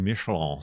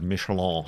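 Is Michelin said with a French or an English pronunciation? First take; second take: French; English. First: The name is pronounced the French way. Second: The name is pronounced the plain English way. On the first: It sounds like a fancy term. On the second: It is the everyday name.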